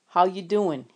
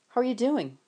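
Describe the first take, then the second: First: It is said in a fake New York accent. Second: It is said in a plain voice.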